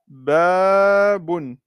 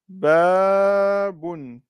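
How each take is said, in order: First: The first vowel is held long. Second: The first vowel is held long.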